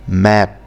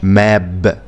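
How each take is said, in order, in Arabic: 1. الصامت الأخير هو p، وهو مهموس. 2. الصامت الأخير هو b، وهو مجهور.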